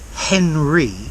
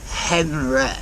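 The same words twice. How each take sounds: First: The final vowel is a plain ee sound. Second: The final vowel is an open eh sound. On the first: "not Henry" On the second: "re at the end"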